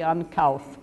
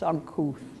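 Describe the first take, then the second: First: The vowel sounds like the one in mouth. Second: The vowel does not sound like mouth. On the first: This is how the spelling suggests it is said. The speaker calls it wrong. "Should be uncouth, but it isn't" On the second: This is how the word is actually said. The speaker calls it right. "It's uncouth"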